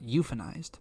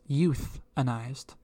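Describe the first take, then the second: First: The middle consonant is an 'f' sound. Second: The middle consonant is a 'th' sound. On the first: The speaker calls it wrong. "not euphanized" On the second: The speaker calls it right. "it's euthanized"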